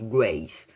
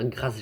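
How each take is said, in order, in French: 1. Le prénom se prononce à l'anglaise. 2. Le prénom se prononce à la française. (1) "je pense que ça se dit Grace" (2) "j'ai pas d'accent, donc euh, c'est mieux de dire Grace Jabari"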